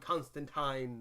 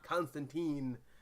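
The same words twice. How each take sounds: First: The last syllable rhymes with fine. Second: The last syllable does not rhyme with fine. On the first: The speaker calls it right. "rhymes with I think it says fine" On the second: The speaker calls it wrong. "not Constantine"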